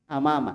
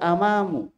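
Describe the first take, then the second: First: The word ends in an 'a' vowel. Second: The word ends in an 'u' vowel. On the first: The speaker calls it right. "tapi dibaca amama" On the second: The speaker calls it wrong. "nggak boleh dibaca amamu"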